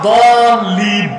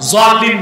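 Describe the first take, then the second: First: The word begins with a d sound. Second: The word begins with a j sound. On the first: The speaker calls it right. "আসলে উচ্চারণটা দলিন" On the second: The speaker calls it wrong. "জলিন না, জলিন পড়লে বরং নামাজি হবে না"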